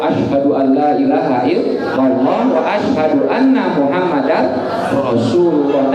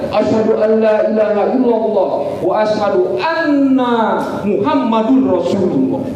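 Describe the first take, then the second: First: It is recited in a calm, even way. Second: It is recited loudly with great fervor.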